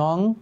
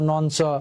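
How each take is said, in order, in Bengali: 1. শব্দটি একটি নাসিক্য 'ng' ধ্বনি দিয়ে শেষ হয়। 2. শব্দটি 'nch' ধ্বনি দিয়ে শেষ হয়। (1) "এর এক্সাক্ট প্রনাউন্সিয়েশন হচ্ছে" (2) "নানান রকমের উচ্চারণ আমি শুনেছি"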